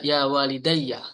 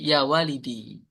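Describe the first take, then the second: First: The word ends with an added 'ya' syllable. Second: The word ends on a plain long 'i' sound. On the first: "Ya mutakalim itu boleh di fathah" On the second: "yaknya disukun"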